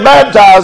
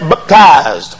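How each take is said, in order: First: The word is said in an ordinary, plain way. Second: The word is said in an exaggerated, mocking way. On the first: This is the ordinary pronunciation. "They don't say baptized" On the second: This imitates how a certain group of preachers says it. "they say baptized"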